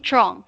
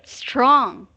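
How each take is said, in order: First: The word begins without any S sound. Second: The word begins with a clear S sound. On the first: The speaker calls it wrong. "only strong, without an S" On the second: The speaker calls it right. "that's it"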